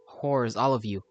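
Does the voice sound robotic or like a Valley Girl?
robotic. It is said in a put-on robotic voice. "said out loud in a robot voice"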